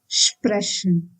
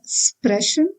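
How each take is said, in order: First: The word begins with an sh sound. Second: The word begins with a plain s sound. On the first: The speaker calls it right. "but then sprechen" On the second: The speaker calls it wrong. "we should not pronounce it as sprechen"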